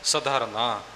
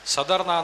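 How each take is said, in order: First: ਸਧਰਨਾ with slight weight on ਧ. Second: ਸਧਰਨਾ with no weight on ਧ; ਸਧਰਨਾ said flat, the ਧ not stressed; wrong pronunciation. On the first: Teacher models ਸਧਰਨਾ with weight on ਧ. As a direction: lean a little on ਧ in ਸਧਰਨਾ. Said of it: "ਧੱਦੇ ਦੇ ਉੱਪਰ ਥੋੜ੍ਹਾ ਜਿਹਾ ਵਜਨ". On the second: Teacher shows how not to say ਸਧਰਨਾ, ਧ unstressed. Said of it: "ਨਹੀਂ ਬੋਲਣਾ". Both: Shown as a demonstration.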